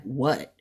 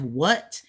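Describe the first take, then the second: First: "what" asked as a question. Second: "what" as an exclamation, not a question. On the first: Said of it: "what with a question mark". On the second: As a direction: exclaim "what" with a firm ending. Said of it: "what with an exclamation point". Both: Shown as a demonstration.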